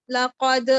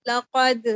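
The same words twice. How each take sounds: First: لقد ending in a hard catch, like a glottal stop after the د; wrong qalqalah with hamza. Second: لقد with a loud clean bounce on the final د, no glottal stop; strong qalqalah, right. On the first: Teacher showing the mistake students make, hamza at the end. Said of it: "آپ نے اس کو ایسے نہیں پڑھنا". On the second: Teacher showing the correct strong qalqalah on لقد. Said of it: "ہوگا strong قلقلہ". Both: Shown as a demonstration.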